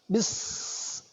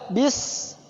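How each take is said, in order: First: The final s sound is held too long. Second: The final s sound is held briefly. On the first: The speaker calls it wrong. "terlalu berlebihan" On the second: The speaker calls it right. "jadi cukup dua saja"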